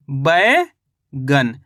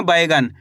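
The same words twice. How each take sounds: First: "बैगन" very slow, बै rising, long gap, गन falling; syllable by syllable. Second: Said in the usual way. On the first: Shown as a demonstration. Teacher shows learners the finished word, slowly in two parts. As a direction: split "बैगन" into a stretched बै and a separate गन. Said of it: "तो मिलके बन जाएगा अपने ये". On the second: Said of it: "क्या लिखेंगे?".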